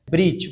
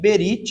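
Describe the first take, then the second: First: The vowel between b and r nearly disappears. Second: A full vowel is heard between b and r. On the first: The speaker calls it right. "mas a forma correta é brit" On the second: The speaker calls it wrong. "Alguns leem berit, é uma forma aportuguesada"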